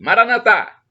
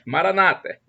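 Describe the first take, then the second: First: The stress is on the last syllable. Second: The stress is on the second-to-last syllable. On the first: This is how Catholics say it. "Nós dizemos assim, ... nós com a tônica na última sílaba" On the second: This is how Protestants say it. "Os protestantes evangélicos, ... Um com a tônica na penúltima sílaba"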